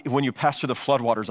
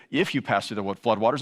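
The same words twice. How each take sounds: First: "When" leaned on at the start, the rest even; the promise hangs on "When"; stress on WHEN. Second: "If" pressed a bit harder, "floodwaters" lifted at the end; stress on IF. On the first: Preacher to congregation, landing on "When". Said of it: "It was assumed you would pass". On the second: Preacher showing the wrong wording, stressing "If". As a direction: set "If" against the real wording. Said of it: "It doesn't say". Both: Shown as a demonstration.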